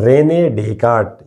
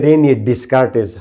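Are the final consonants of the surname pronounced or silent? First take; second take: silent; pronounced. First: The s sounds of the surname are left silent. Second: The final s sounds of the surname are pronounced. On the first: This is the actual French pronunciation. "मगर ये एक्चुअली है रेने डेकार्ट" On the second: This is how it is commonly said locally. "हम बोलते हैं रेने डिस्कार्टिस"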